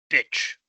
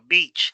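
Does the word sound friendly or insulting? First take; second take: insulting; friendly. First: It is said from the throat, sounding insulting. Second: It is said smiling, sounding soft.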